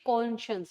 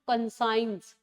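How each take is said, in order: First: The word is said as 'con-shuns'. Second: The word is said as 'con-science'. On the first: The speaker calls it right. "This is suppose to प्रोनाउंशिएट कॉन्शियंस" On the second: The speaker calls it wrong. "Not कंसाइंस"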